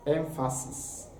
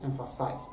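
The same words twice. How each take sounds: First: "Emphasis" ending in an unvoiced -sis; careful "Emphasis" with a hissed final s; noun pronunciation. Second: "emphasize" ending in -size; low, soft "emphasize" with a long i in the last syllable; verb pronunciation. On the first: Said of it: "noun form is emphasis". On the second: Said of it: "The verb form is emphasize". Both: Shown as a demonstration.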